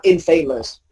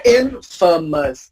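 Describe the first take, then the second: First: Infamous mispronounced as in-FAY-mus; rejected in-FAY-mus; wrong long A. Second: Infamous spaced out as IN-fuh-mus; careful IN-fuh-mus; correct short unstressed A. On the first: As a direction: say infamous with famous inside. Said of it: "not infamous". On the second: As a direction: stress IN in infamous, weak middle. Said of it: "you say infamous". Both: Shown as a demonstration.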